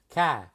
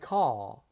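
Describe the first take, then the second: First: Said in a Boston accent with dropped r. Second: Said in an English accent, soft and r-less.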